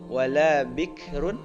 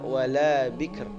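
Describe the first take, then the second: First: The word ends with a vowel and n. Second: The word stops on a final r.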